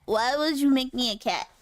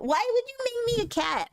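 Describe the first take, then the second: First: Said in the usual way. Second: Put-on childish high whine; high whiny voice. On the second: Repeats line, first high.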